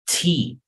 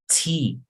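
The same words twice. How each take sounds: First: The T is said strongly, with force. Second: The same.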